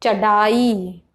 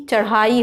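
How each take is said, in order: First: चढ़ाई said slowly as chadaai; hard d in चढ़ाई. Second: चढ़ाई said as charhaai; flapped rh in चढ़ाई. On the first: Teacher shows wrong form, चढ़ाई with hard d. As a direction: use a stopped d, unflapped, in चढ़ाई. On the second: Teacher gives correct form, चढ़ाई with flapped rh. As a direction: flap the tongue for ढ़ in चढ़ाई. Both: Shown as a demonstration. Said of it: "जबकि चढ़ाई होता है".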